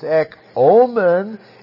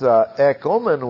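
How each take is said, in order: First: The O vowel is held long. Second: The O vowel is kept short. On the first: It is an urging: let us have. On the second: It is a fact: we do have.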